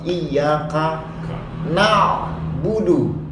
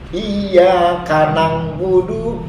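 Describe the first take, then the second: First: The syllables are said cleanly as 'ka na'. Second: An added 'ng' sound makes it 'kanang'. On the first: The speaker calls it right. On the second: The speaker calls it wrong.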